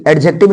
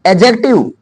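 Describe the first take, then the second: First: "एडजेक्टिव" with d sounded and b at the end; wrong d and b. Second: "एडजेक्टिव" as ajek-tiv, ending in v; correct silent d. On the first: Teacher rejects the students' version, sounding d and b. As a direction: say "एडजेक्टिव" as ad-jek-tib. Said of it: "नहीं, एडजेक्टिव नहीं बोलेंगे". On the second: Teacher asks students to listen, models ajek-tiv. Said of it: "देखो ध्यान से सुनो". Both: Shown as a demonstration.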